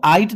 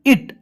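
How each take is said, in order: First: आइट, the i wrongly stretched to "eye"; mispronounced it. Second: इट opening on "ih", not "eye"; short i in इट. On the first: Teacher showing what not to say, "eye" vowel in आइट. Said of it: "इसको आइट नहीं कहेंगे". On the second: Teacher showing students i is said as ee, short i in इट. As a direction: say इट with a short i, pitched high. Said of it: "यहाँ पे ई कहा जाएगा". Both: Shown as a demonstration.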